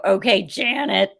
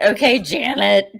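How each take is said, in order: First: Dismissive okay, slower. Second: Dismissive okay. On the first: Repeats the dismissive retort. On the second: Mocking a coworker named Janet. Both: Retold or imitated.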